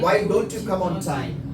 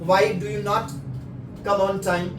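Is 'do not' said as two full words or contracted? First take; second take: contracted; full. First: Do and not are joined into one word. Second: Do and not are said as separate full words. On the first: "डू नॉट को आपने क्या कर दिया, इकट्ठा कर दिया" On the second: "कोई एक बोल रहा"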